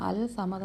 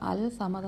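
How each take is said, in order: First: The L is heard before a single S. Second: The L is heard before a single S.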